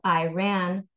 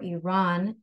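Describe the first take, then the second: First: The name is said with an anglicized pronunciation. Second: The name is said closer to the native pronunciation. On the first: The speaker calls it wrong. "instead of" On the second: The speaker calls it right. "closer to how those nationalities would pronounce them"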